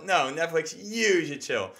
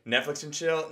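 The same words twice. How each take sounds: First: "You" stretched and punched high; stress on YOU. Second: "Netflix and chill?" asked in a higher pitch; higher, questioning lift on "Netflix and chill?"; questioning catchphrase. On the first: Comic flips the catchphrase as a retort, stressing "You". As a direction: correct it firmly, leaning high on "You". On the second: Comic tries out a joke line, "Netflix and chill?" as a question. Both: Acted. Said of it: "somehow we can be like".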